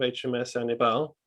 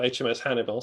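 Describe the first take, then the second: First: The name is said with a French accent. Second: The name is said with an English accent. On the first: The speaker calls it wrong. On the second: The speaker calls it right.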